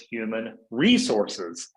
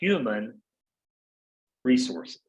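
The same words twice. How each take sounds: First: The stress falls on the word resources. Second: The stress falls on the word human. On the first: Staff are treated mainly as resources. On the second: The focus is on caring for people.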